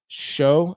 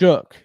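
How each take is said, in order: First: The name ends in an open vowel sound. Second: The name ends in a k sound. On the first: The speaker calls it wrong. "I know. How do you say that, Mark? I know you corrected me on that" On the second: The speaker calls it right.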